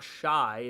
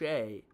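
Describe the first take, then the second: First: The name rhymes with 'sky'. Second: The name rhymes with 'say'. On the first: The speaker calls it wrong. "it's not Shy" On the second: The speaker calls it right. "it's Shea"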